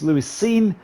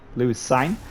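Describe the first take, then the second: First: The surname has the long 'ee' vowel. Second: The surname has the long 'eye' vowel. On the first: The speaker calls it right. "It's Lewis Scene, like movie scene" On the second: The speaker calls it wrong. "I kept saying sign because it's like mine but with a C"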